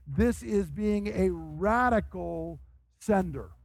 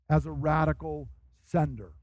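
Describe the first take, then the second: First: Langsam, mit Nachdruck auf this und radical; slow emphatic. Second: Said in the usual way. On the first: Acted. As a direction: jedes Wort betonen, gegen lauwarme Unterstützung. Contrasted with lukewarm support.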